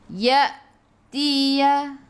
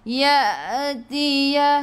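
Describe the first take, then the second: First: A glottal catch breaks the word after ya. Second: The word flows smoothly with no glottal catch. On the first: The speaker calls it right. "Hamzah ada baris sukun baca dengan putus" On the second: The speaker calls it wrong. "jangan baca ya tia ha yang tu tak putus"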